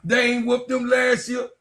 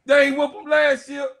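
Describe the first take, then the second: First: Said in the usual way. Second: Higher, louder shouted repeat; yelling the repeat at the rival fan; shouted taunt. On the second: Real, not acted. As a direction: shout it louder the second time.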